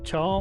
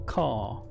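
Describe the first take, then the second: First: The word begins with a ch sound. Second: The word begins with a k sound. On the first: It is read as it is spelt. "you would pronounce that as char, like chai" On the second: It follows the word it abbreviates. "it is short for character, right? So it would be car"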